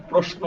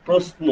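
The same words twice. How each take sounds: First: প্রশ্ন with sh, 'proshno'; sh sound, not used. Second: প্রশ্ন with a plain s, 'prosno'; s sound. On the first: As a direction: say the শ in প্রশ্ন as a hushing sh. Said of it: "প্রশ্ন না কিন্তু". (প্রশ্ন-তে তালব্য শ, sh-এর মতো) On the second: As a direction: say the শ in প্রশ্ন as English s. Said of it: "প্রশ্ন, প্রশ্ন না কিন্তু". (প্রশ্ন-তে শ-এর জায়গায় দন্ত্য স, s-এর মতো) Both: Shown as a demonstration.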